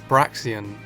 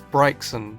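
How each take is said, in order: First: The first vowel is not the 'eye' sound. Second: The first vowel is the 'eye' sound. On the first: "At first I pronounced it as" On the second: "A I makes the I sound"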